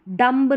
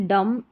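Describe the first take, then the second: First: डम्ब with b sounded; higher pitch, audible b in डम्ब; wrong pronunciation. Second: डम ending on m; silent b. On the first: Teacher showing the mistake, b voiced in डम्ब. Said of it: "डम्ब नहीं". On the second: Teacher correcting students, डम with silent b. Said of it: "बी silent रहता है". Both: Shown as a demonstration.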